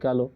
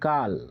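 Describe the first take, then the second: First: The word ends with an added o vowel. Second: The word ends on the consonant l. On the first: It is said this way to fit the rhyme. "ছন্দের ক্ষেত্রে মিলের জন্য এরকম বলতে হয়" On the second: This is how the word is written. "Actually কাল কাল কথাটা লেখা আছে"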